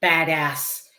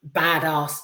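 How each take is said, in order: First: "badass" with a short flat "a" in both syllables; American-style badass. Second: "badass" with a long British "ah" in the second syllable. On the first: Shown as a demonstration. Reviewer correcting himself mid-sentence, "badass" in American pronunciation. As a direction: stretch out "badass" the American way, as "bad-ass". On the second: Real, not acted. Reviewer describing Jamie Lee Curtis, "badass" in British pronunciation. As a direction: say "badass" as "bad-ahss". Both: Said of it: "it's impossible to say badass without, in a, in a British accent".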